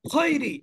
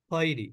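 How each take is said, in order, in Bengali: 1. স্বরের গ্লাইডটি হার্ড ও হঠাৎ করে বলা হয়। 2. স্বরের গ্লাইডটি সফট ও মসৃণভাবে বলা হয়। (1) "আমি যদি এটাকে হার্ডলি পড়ি" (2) "সফটলি উচ্চারণ করলাম"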